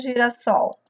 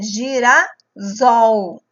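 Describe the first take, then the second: First: The consonant before the last syllable is a voiceless s. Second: The consonant before the last syllable is a voiced z. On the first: The speaker calls it right. "para ele ficar com o som do S" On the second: The speaker calls it wrong. "vai ficar com som de Z"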